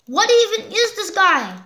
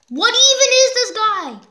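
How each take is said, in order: First: Baffled question. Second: Louder exasperated. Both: Real, not acted. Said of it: "repeated louder".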